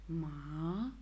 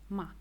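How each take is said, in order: First: The pitch dips down, then rises. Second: The pitch falls throughout. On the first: "the third tone goes down and up" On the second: "the fourth goes down"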